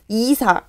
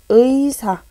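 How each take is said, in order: First: The first vowel is a plain i sound. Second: The first vowel is the diphthong ui. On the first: The speaker calls it wrong. "이렇게 발음 안 하죠" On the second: The speaker calls it right. "이렇게 발음하는 것이 어, 옳은 표현이다"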